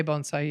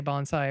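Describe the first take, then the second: First: Bonsai with a long O, "BONE-sigh"; correct bonsai. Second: Bonsai with an open "ah", "BAHN-sigh"; common mispronounced bonsai. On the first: Student showing how bonsai should be said, long-O pronunciation. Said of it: "They don't say bonsai". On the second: Student showing what outsiders need to hear, open-A pronunciation. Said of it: "You have to say bonsai". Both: Shown as a demonstration.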